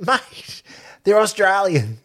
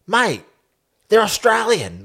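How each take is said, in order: First: High, curt mock brush-off; quoting the coach again, mock curt; dismissive. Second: High, curt mock brush-off; mock Aussie coach brushing off reporters; dismissive. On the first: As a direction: repeat the blunt brush-off. Repeated quote of Eddie. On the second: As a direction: imitate a blunt coach waving it off. Eddie quoted dismissing Cobras question.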